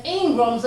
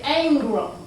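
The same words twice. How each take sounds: First: Said in the usual way. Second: "Ingrams" with a drawn first vowel, like "Ayngrams"; southern Ingrams. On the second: Shown as a demonstration. Telling family how the name is said down south, drawn "ay" vowel. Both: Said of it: "what we would say down south".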